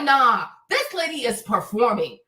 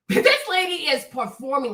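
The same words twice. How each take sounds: First: Said in the usual way. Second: Said through a laugh; amused repeat. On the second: Real, not acted.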